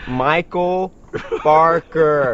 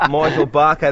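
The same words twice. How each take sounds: First: Exaggerated American accent, higher and deliberate; over-pronounce it in American for the phone robot; loud, careful mock-American enunciation; put-on American phone pronunciation. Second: Imitating a broad Aussie saying his name; higher, louder Australian pronunciation, R dropped; broad Australian accent. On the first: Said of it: "when you, they get on this phone". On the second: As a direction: say it in thick, unadjusted Australian. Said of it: "'Cause every time he goes".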